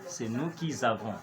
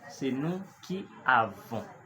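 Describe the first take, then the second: First: A z sound links the word before to avons. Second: No z sound links the word before to avons. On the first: The speaker calls it wrong. "Nous n'allons pas dire" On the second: The speaker calls it right. "qui fait en sorte qu'il n'y ait plus de liaison"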